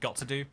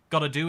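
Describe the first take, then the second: First: The words are said separately in full form. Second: The words blend into a reduced 'gotta' form. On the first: "instead of got to do" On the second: "gotta gotta do instead"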